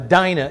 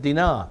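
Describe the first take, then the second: First: The name is said in a non-Hebrew way. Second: The name is said in the Hebrew way. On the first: This is an acceptable common way to say it. "if you want to" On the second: This is how the original speakers said it. "the Hebrews would pronounce it Dinah"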